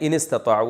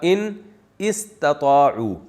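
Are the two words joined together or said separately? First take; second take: joined; separately. First: The two words run together, alif silent. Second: The two words are said separately, alif pronounced. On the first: This is how it is actually recited. "तो मिला के पढ़ा दिया" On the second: This is the underlying original form. "असल में था"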